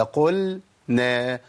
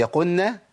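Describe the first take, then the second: First: "قلنا" slowly as "qul-na"; slow chanted "قلنا", lam separate from nun; clear lam. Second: "قلنا" said quickly as "qunna"; questioning "قلنا" with lam melted into nun; merged lam. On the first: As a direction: sound the l fully in "قلنا" before the n. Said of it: "ولا". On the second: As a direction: drop the l in "قلنا" and double the n. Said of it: "هي". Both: Shown as a demonstration.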